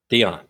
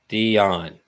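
First: It is said at normal speed. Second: It is said slowly.

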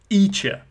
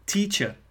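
First: The t sound at the start is dropped. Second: The t sound at the start is pronounced.

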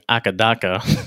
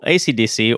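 First: The letters blur together into one word. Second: Each letter is said separately and clearly.

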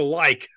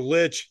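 First: The word ends with a 'k' sound. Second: The word ends with a 'ch' sound. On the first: The speaker calls it right. "It's a like. Learn your Norse and Old English" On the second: The speaker calls it wrong. "It's not a Lich"

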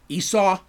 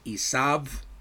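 First: The name is said in its English form. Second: The name is said in its Hebrew form. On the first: "the name that we know as Esau" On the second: "actually pronounced Esav"

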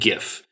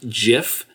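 First: The word begins with a hard g sound. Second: The word begins with a soft j sound. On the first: "not GIF" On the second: "it's a soft G"

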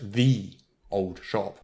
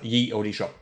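First: The first word begins with a th sound. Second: The first word begins with a y sound. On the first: The speaker calls it right. "that's pronounced the old shop" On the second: The speaker calls it wrong. "the word ye does not exist"

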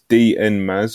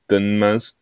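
First: The first part is said as two letters. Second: The first part is said as one syllable. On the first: "How am I pronouncing this?" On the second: "or Dun Maz?"

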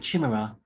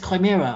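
First: The word starts like 'chimney'. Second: The word does not start like 'chimney'. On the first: This is how the speaker used to say it. The speaker calls it wrong. "I always used to call it Chimera. Like, Chimney" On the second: This is how most people say it. The speaker calls it right. "everyone says Chimera"

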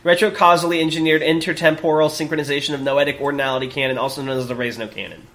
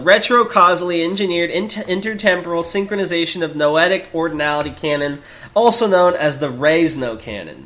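First: It is said quickly in one go. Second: It is read slowly, with stumbles.

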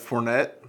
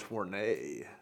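First: The name is read with English spelling sounds. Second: The name is said with French pronunciation. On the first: The speaker calls it wrong. "it looks like Fournet" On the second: The speaker calls it right. "but I already know it's Fournet"

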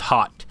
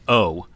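First: The H and T sounds are pronounced. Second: The H and T sounds are silent. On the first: The speaker calls it wrong. "a lot of people pronounce hot" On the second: The speaker calls it right. "It's actually pronounced O. The H is silent"

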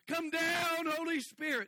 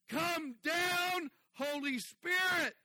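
First: It is called out louder than before. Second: It is yelled out at full volume. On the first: "maybe I'll yell it louder" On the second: "he's yelling out"

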